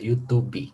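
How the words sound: It is pronounced the Portuguese way. The speaker calls it wrong. "en portugués se diría YouTube"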